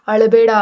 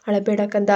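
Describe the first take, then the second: First: "ಅಳಬೇಡ" barked out loud and firm as a command; "ಅಳಬೇಡ" said loudly, a hard order to stop crying; stern loud order. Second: Tender comfort. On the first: Father sternly orders crying daughter "ಅಳಬೇಡ", loud command. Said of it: "ಗಟ್ಟಿಯಾಗಿ ಆದೇಶಿಸ್ತಾನೆ". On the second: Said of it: "ಮುದ್ದಿಸಿದ್ಲು". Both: Acted.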